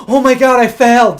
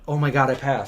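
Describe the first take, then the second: First: High, loud imitated panic; mock panic. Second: Softer, lower stunned relief; quiet relief. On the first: Recalling driving test mistake, loud high mock panic. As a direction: replay the moment you knew you'd failed. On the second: Retold or imitated. Told he passed the driving test, quiet stunned relief. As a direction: breathe it out, barely believing it.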